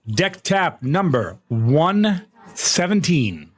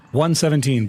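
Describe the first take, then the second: First: Slow, stretched-out countdown voice; drawn-out announcement. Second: Said in the usual way. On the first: Acted. Streamer announcing the tap to chat, slow and drawn out. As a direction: drag it out like a big reveal.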